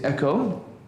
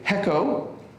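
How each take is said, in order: First: The word starts directly with the vowel. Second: The word starts with an h sound. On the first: The speaker calls it right. "we say echo" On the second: The speaker calls it wrong. "we don't say hecko"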